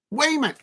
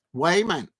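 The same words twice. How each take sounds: First: A high, stretched Geordie "Wayman"; a lightly done Geordie call of "Wayman"; Newcastle accent. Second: Said in the usual way. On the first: Pretend. Streamer tries a Newcastle accent on the player's name. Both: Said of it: "that sounded a bit like Newcastle accent".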